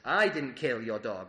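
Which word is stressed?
I. The word 'I' carries the emphasis.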